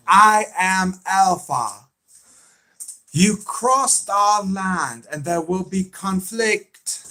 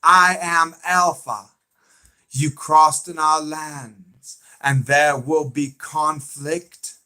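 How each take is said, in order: First: High, drawn-out villain impression; slow, raised voice imitating a menacing Southern leader; Alpha. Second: Slow, raised impression on request; Alpha. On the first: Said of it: "That's the way she sounds". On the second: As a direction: stretch each word out, imitating the villain's declaration. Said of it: "Okay, I'll do it".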